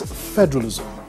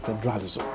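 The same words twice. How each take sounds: First: The stress is on the first syllable. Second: The stress is on a later syllable. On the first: The speaker calls it right. "The word is federalism ... you stress the first syllable" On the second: The speaker calls it wrong. "and not federalism"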